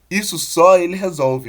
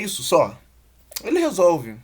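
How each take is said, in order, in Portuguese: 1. Não há pausa depois de 'só'. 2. Há uma pausa depois de 'só'. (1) "o cara é um herói" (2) "tem um tom, o tom que não aparece aqui"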